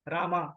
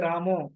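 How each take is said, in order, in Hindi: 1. नाम लंबे आ स्वर से खत्म होता है। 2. नाम ओ स्वर से खत्म होता है। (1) "वही दक्षिण में जाएंगे तो आपको मिलेगा रामा" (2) "बंगाल में, तो वहां पे रामो"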